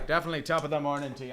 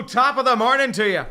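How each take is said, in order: First: Said in the usual way. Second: Loud, high hammed-up Irish lilt; a cheery stage-Irish top of the morning; mock Irish greeting. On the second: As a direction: belt out a fake Irish hello. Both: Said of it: "It's not Irish".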